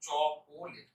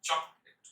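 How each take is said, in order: First: চকোলেট in three syllables, cho-ko-let; drawn-out cho-ko-let for চকোলেট; common mispronunciation. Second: চকলেট as two syllables, chok-let; correct pronunciation. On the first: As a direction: sound a full middle o in চকোলেট. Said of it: "এটা অনেক উচ্চারণ করে ফেলে". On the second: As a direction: say চকলেট with no vowel between k and l. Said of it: "উচ্চারণ হচ্ছে চকলেট". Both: Shown as a demonstration.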